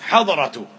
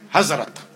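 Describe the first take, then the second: First: The middle consonant is a 'd' sound. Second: The middle consonant is a 'z' sound. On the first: "this is an Arabic word in fact" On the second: "in the subcontinental pronunciations"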